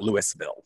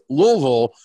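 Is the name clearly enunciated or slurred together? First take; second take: clear; slurred. First: The name is enunciated clearly, syllable by syllable. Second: The name is slurred with loose, relaxed lips. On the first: The speaker calls it wrong. "It is not" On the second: The speaker calls it right. "Try to enunciate as poorly as possible and let your lips just kind of do their thing"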